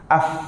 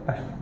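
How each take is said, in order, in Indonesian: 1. f dibuat dengan menggigit bibir bawah. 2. f dibuat dengan menggigit bibir atas. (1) "mesti gigit bibir a bawah" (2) "Boleh gigit bibir atas kan?"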